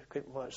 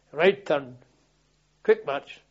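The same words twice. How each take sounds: First: Said in the usual way. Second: Loud parade-ground order; drill command. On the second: Retold or imitated. Sergeant ordering the squad to move off, loud drill command.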